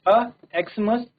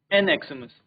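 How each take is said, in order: First: "अ एक्समस" with a short "a", then Xmas said as Christmas; article a before Xmas read as Christmas. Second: "एन एक्समस" with "an", then the letters spelt out as ex-mas; article an before Xmas read as ex-mas. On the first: Teacher shows the class the "a" version, clearly said. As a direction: say "अ एक्समस" reading the word as Christmas. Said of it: "first sentence में इसको क्रिसमस पढ़ रहे हैं". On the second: Teacher shows the class the "an" version, clearly said. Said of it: "second sentence में हम इसको एक्समस पढ़ेंगे". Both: Shown as a demonstration.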